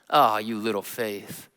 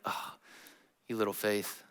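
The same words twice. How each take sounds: First: It sounds teasing and mocking. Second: It sounds warm and compassionate.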